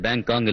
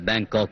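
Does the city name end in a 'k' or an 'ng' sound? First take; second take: ng; k. First: The name ends with an 'ng' sound. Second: The name ends with a 'k' sound. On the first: The speaker calls it wrong. "அந்த ஊருக்கு பேரு பேங்காங் இல்ல" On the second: The speaker calls it right.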